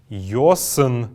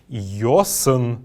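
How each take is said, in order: Both takes have the same delivery.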